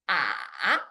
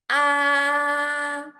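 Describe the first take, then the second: First: The pitch dips low then rises again. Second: The pitch stays high and level throughout. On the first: "It starts middle low and dips down low and then up to middle high" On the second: "it starts high and maintain high throughout the whole process"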